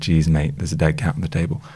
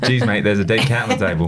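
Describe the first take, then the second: First: It is said in the speaker's ordinary accent. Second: It is said in a put-on Australian accent. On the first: "I wish you'd done the Australian accent" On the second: "That's good"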